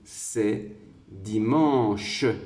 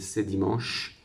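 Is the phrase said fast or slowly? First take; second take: slowly; fast. First: The phrase is spoken slowly. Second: The phrase is spoken quickly. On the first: "si je le dis doucement" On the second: "lorsque je prononce plus vite"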